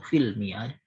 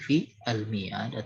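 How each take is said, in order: First: The two words are pronounced run together. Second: The two words are pronounced separately.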